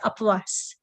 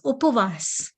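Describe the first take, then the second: First: The first vowel is an open 'ah' sound. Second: The first vowel is a rounded 'oo' sound. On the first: The speaker calls it wrong. "people will say apvas" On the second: The speaker calls it right. "It is upvas"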